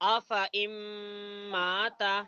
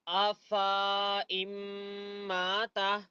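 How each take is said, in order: First: The vowel after the f is short. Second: The vowel after the f is long. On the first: The speaker calls it right. "ऐसा पढ़ना सही है" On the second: The speaker calls it wrong. "ऐसा पढ़ना गलत है"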